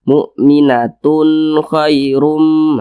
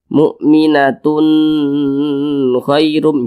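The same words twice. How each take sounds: First: The 'tun' is short and clear. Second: The 'tun' is drawn out long. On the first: The speaker calls it right. "dibaca jelas, tidak berdengung ... pendek saja" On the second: The speaker calls it wrong. "Jangan dipanjangkan seperti itu, salah"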